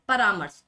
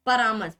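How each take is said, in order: First: Said in the usual way. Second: परामर्श with short second vowel, par-marsh; rejected pronunciation. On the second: Shown as a demonstration. Teacher rejects a misspelling, short-vowel परामर्श. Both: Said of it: "परामर्श नहीं".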